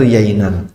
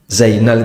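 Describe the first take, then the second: First: The name begins with a y sound. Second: The name begins with a z sound.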